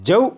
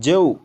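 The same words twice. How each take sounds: First: The syllable is said hard and harsh. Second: The syllable is said gently and soft. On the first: The speaker calls it wrong. "सख्ती से नहीं पढ़ेंगे। जैसे जऊ, इस तरह से नहीं" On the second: The speaker calls it right. "बल्कि नरमी से"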